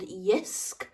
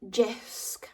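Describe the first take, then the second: First: The name begins with a Y sound. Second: The name begins with a J sound. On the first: The speaker calls it right. "it's with a silent J" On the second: The speaker calls it wrong. "Am I saying that right?"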